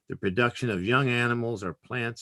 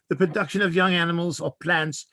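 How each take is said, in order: First: It is read in the speaker's plain accent. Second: It is read in an English accent.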